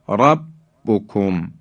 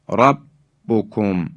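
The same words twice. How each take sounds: No difference in how they are said.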